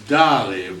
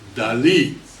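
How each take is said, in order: First: The stress is on the first syllable. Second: The stress is on the last syllable. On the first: The speaker calls it wrong. "in America we pronounce Dali" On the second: The speaker calls it right. "emphasis on his last uh, letter, I"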